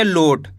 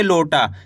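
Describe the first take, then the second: First: लोट ending on a closed T, no aa after it; लोट dropping low, no vowel at the end; without final vowel. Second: लोटा ending in a long open aa; लोटा with the final aa clearly sounded; drawn-out final vowel. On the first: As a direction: cut लोट off at the final consonant. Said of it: "आ की मात्रा नहीं होती तो कैसे पढ़ते". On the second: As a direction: stretch the last vowel of लोटा. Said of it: "खींच के पढ़ दिए". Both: Shown as a demonstration.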